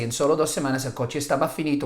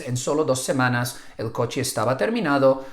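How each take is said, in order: First: "estaba finito" rushed out a bit fast; a student slipping quickly into the wrong word; blurted by accident. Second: Said in the usual way. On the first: Retold or imitated. Student slips in class, saying it a bit fast. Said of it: "you can hear them by accident say". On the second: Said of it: "which is".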